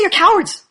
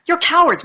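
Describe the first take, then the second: First: Louder and higher, blunt; blunt loud accusation. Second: Raised, blunt and upfront; frank loud accusation. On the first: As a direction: spit the accusation out. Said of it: "Or we could just say". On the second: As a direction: state it flatly and loudly. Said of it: "frank and upfront with them". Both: Shown as a demonstration.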